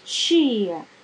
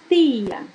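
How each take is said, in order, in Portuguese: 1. A palavra começa com um som africado parecido com ch. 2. A palavra começa com um t simples. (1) "Mas em Salvador, nós falamos tia. ... a composição entre dois sons" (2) "Em algumas cidades do interior, em Aracaju, por exemplo, nós falamos tia"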